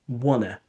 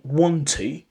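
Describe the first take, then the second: First: The words run together with sounds dropped. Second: Both words are said fully and separately. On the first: "they say wanna. So that's elision. That's informal English" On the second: "instead of saying want to"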